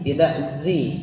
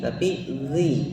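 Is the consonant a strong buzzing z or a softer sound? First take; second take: strong z; softer. First: The consonant sounds like a strong buzzing z. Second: The consonant is softer, not a strong z. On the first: The speaker calls it wrong. "terlalu ke z, itu salah" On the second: The speaker calls it right. "biasa saja"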